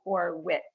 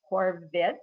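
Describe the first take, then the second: First: "Horwitz" with an English w in the middle; Canadianized pronunciation. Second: "Horvitz" with a v sound in the middle; German pronunciation. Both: Shown as a demonstration. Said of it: "Canadianizing my surname".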